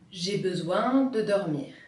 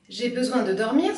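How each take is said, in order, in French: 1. La phrase est découpée en deux segments après besoin. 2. La phrase est dite d'un seul tenant.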